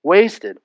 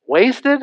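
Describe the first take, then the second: First: Said in the usual way. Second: Much higher, disbelieving question on Wasted?; incredulous echo. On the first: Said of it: "Why was this ointment wasted like that?". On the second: Shown as a demonstration. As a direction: repeat Wasted? as if you can't believe it.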